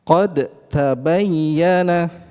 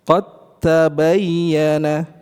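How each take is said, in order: First: The d is released with a bounce before t. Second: The d merges fully into the following t. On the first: The speaker calls it wrong. "Sering kali kita mendengar salah satu ikhwah membaca" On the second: The speaker calls it right. "dibaca dengan idgham... Tidak kita pantulkan lagi"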